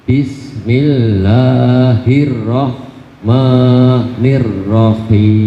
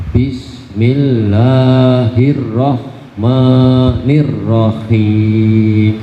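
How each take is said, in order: No difference in how they are said.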